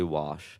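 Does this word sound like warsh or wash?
wash. It has no R sound, like plain wash. The trained way that avoids sounding South Baltimore. The speaker calls it right. "I had to train myself to say wash"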